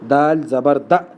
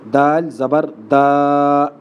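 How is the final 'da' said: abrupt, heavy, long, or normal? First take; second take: abrupt; long. First: The final vowel is cut off with a jerk. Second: The final vowel is drawn out long. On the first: "बाज़ लोग झटका देते हैं, ये भी गलत है" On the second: "लंबा किस तरह पढ़ते हैं लोग ... ये गलत है"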